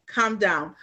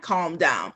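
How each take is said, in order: First: "calm" said with a short uh, like "come"; misheard as "come down". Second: Said in the usual way. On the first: Shown as a demonstration. Newcomer explaining what she heard, "calm" pronounced as "come". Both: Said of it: "To me, I meant".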